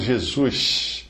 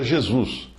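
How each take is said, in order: First: The final sound is a hushing sh. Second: It starts with a soft zh and ends in s. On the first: "como fazem os cariocas puxando um X no lugar do S no final" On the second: "um paulista que lê a palavra Jesus e pronuncia Jesus"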